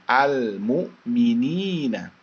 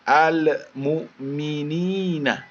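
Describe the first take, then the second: First: The L is held clearly without a bounce. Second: The L bounces with an added vowel sound. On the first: The speaker calls it right. "Lam mati dibaca jelas" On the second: The speaker calls it wrong. "jangan al-mu'minina ... Ada suara le-nya di situ"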